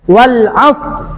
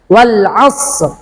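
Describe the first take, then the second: The two takes are said the same way.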